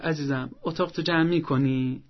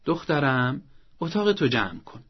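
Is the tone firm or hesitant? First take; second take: hesitant; firm. First: It sounds soft and lacks firmness. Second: It sounds firm but kind.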